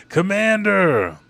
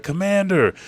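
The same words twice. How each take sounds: First: High, loud, long-drawn cry; acted desperate call. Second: High, loud mock cry; acted alarmed call. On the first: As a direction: stretch the call out in mock despair. Soldiers call again, more desperately. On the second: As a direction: call out urgently, short. Soldiers call to wounded commander.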